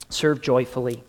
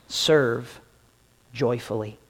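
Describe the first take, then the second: First: Said in the usual way. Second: Serve, then a held pause, then joyfully dropped low and soft; dramatic pause before joyfully. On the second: Shown as a demonstration. Preacher building suspense for the final point, pause then soft. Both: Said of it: "and then this".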